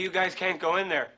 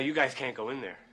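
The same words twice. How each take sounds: First: It is said louder than before. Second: It is said at a normal, quiet volume.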